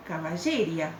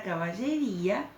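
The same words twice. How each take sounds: First: "caballeria" stressed on lle, ending in a gliding ria; sin tilde. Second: "caballería" stressed on rí, with a separate final a; acento en la í. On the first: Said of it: "tendría que pronunciarlo caballeria". ("caballeria" con acento en lle y diptongo final) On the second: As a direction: stress the í in "caballería", keeping í-a in hiatus. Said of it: "Si yo no le pusiera tilde". ("caballería" con acento en la í) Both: Shown as a demonstration.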